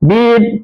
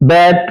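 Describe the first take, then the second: First: The word has a long ee vowel. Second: The word has a short e vowel. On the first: It is the present form. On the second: It is the past form.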